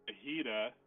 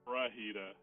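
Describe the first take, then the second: First: The word starts with a plain f sound. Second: The word starts with an fr sound. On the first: The speaker calls it right. "Instead of saying fajita" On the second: The speaker calls it wrong. "I've always said wrong"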